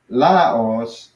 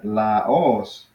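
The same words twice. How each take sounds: First: The stress is on the first syllable. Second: The stress is on the last syllable. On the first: The speaker calls it wrong. "notice how I'm not saying Laos" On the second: The speaker calls it right. "I'm saying Laos"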